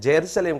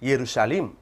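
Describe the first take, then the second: First: The word begins with a J sound. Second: The word begins with a Y sound. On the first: The speaker calls it wrong. "ஹீப்ரூல எங்க இந்த ஜேயை கண்டுபிடிச்சாருன்னு தெரியல" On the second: The speaker calls it right. "எருஷலேம் என்ற ஒரு வார்த்தை தான் அங்க பயன்படுத்தப்படணும்"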